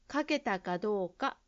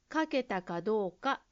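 Both takes have the same delivery.

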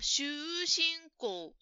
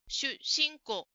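First: The first vowel is drawn out long. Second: The s sound is doubled and held. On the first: The speaker calls it wrong. "ジムさんは出身校と言っているように聞こえました" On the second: The speaker calls it right. "うではなくて小さいつが入ります"

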